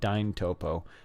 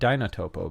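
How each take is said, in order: First: The word is said with three syllables. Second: The word is said with four syllables. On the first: The speaker calls it right. "I'm not even sure how to pronounce this" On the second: The speaker calls it wrong. "I used to call it Dynotopo, but then I noticed there's no N"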